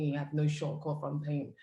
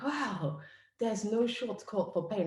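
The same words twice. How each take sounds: First: Said in the usual way. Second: Higher, slow, struck by the words; awed wow. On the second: Retold or imitated. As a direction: let it sink in with wonder. Host echoes the quote in awe.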